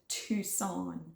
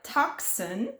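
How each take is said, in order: First: The word is said unlike its spelling. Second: The word is sounded out letter by letter. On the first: The speaker calls it right. "but it's pronounced Tucson" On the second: The speaker calls it wrong. "it's spelled like Tucson"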